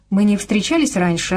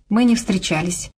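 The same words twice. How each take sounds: First: «Мы не встречались раньше» as a question, lifted on «встречались»; probing question. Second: Said in the usual way. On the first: A narrator's reading. Woman asking a new acquaintance, «Мы не встречались раньше» as a searching question. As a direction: ask «Мы не встречались раньше», pitch jumping on «встречались». Liz asks, Casey answers.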